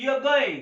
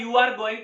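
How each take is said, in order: First: "you are" shrunk to yuh, r silent; stylish contraction. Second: Said in the usual way. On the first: Shown as a demonstration. Teacher shows students the short way, "you are" contracted. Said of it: "तो हम बोलेंगे". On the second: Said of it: "अगर हमें बोलना है".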